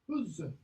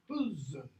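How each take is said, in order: The two takes are said the same way.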